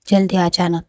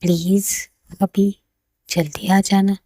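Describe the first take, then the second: First: Mildly glum quote of a partner; mock sulky. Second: Gentle, pausing plea with a smile; smiling, loving. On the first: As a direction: echo it back with little cheer. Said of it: "सड़ा-सड़ा मुँह लेकर बात कर रही हो". (बुझे मन की हल्की नकल) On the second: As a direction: coax a loved one sweetly, unhurried. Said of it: "गहरी सांस लेती है और स्माइल करते हुए कहती है". (मुस्कुराकर प्यार भरी हल्की विनती) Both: A narrator's reading.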